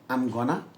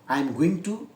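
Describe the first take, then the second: First: 'Going to' is shortened to 'gonna'. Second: Every word of 'I am going to' is said.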